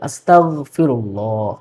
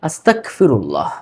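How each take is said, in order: First: The consonant after asta is a g sound. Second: The consonant after asta is a k sound. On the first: The speaker calls it right. "কিন্তু শব্দটা হবে গ দিয়ে" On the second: The speaker calls it wrong. "এটা টোটালি একটা ভুল। আস্তাক ক দিয়ে পড়ে"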